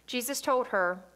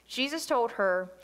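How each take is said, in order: The two takes are said the same way.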